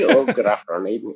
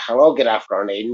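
First: It is said in an attempted Bristol accent. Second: It is said in a Belfast-sounding accent.

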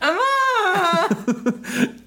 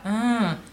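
First: It is a groan louder than before. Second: It is a groan at normal volume.

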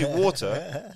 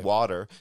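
First: It is said with a British accent. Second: It is said with an American accent. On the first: The speaker kept their own way of talking. "because if you say water, they know what you mean" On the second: The speaker adapted to the local way of talking. "You don't need to say"

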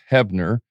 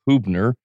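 First: The first vowel sounds like 'eh'. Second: The first vowel sounds like 'uh'. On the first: This is how the name is actually said. The speaker calls it right. "Pronounced Hebner" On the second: This is how the spelling looks. The speaker calls it wrong. "looks like Hubner"

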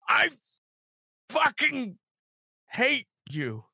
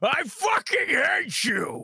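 First: The line is delivered sadly, with a sniffle. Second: The line is delivered in an angry tone. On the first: "you're mad with a slight like sniffle to it" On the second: "which is like the angry one"

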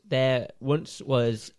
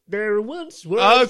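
First: It is said in the speaker's own regular voice. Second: It is said in a put-on narrator impression voice. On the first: "In your regular voice, please" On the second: "I'll tell you the story as everyone's favourite narrator, Morgan Freeman"

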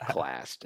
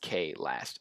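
First: The name is said as one syllable. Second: The name is said as two syllables. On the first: The speaker calls it wrong. "I forgot" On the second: The speaker calls it right. "It's K-Last"

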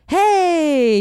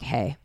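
First: It is said high and lively. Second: It is said low and flat. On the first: The speaker sounds cheerful and bubbly. "not as many like" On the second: The speaker sounds reserved and less bubbly. "lower, ... but just more like"

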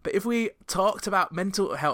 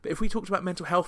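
First: It is spoken in a put-on Scottish accent. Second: It is spoken in the speaker's normal accent. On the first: "doing a kind of Shrek-esque Scottish accent" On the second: "let's go out of that"

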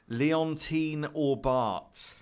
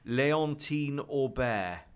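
First: The final t of the surname is pronounced. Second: The final t of the surname is silent. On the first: "I think I've got that wrong. Yeah, that T's not going to be pronounced, is it?" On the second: "That still doesn't sound right"

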